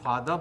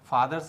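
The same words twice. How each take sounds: First: The final r sound is left silent. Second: The final r sound is clearly pronounced. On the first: "आर का उच्चारण नहीं करते ... तो यह British English हुआ" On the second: "ये American pronunciation है"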